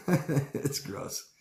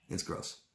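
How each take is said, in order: First: Laughing it out in disgust. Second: Soft whisper of disgust. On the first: Speaker laughing at how gross it is, laughing. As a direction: laugh through the words. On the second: Speaker murmuring disgust about toxic groups, whispered. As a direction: breathe it out under the breath. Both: Real, not acted.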